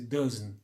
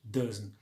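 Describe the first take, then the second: Both takes have the same delivery.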